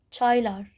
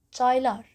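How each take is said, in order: Both takes have the same delivery.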